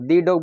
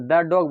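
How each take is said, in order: First: 'The' is said with a long 'ee' vowel. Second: 'The' is said with a short 'uh' vowel. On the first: The speaker calls it wrong. "ये गलत हो जाएगा" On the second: The speaker calls it right. "द dog बोलेंगे"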